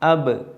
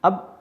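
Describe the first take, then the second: First: The final b ends with a short echoing bounce. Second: The final b stops with no echoing release. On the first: The speaker calls it right. "ഇങ്ങനെ വരണം ആണ് കൽക്കലത്ത്" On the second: The speaker calls it wrong. "അബ് അബ് എന്ന് പറഞ്ഞാൽ കൽക്കലത്തില്ലാതെയായി"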